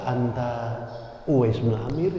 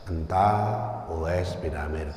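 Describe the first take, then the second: First: It is said with a questioning intonation. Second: It is said with a plain statement intonation. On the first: The speaker is asking whether it is this person. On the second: The speaker is stating who this person is.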